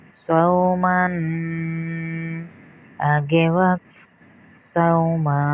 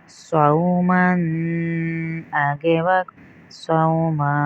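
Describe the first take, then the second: The two takes are said the same way.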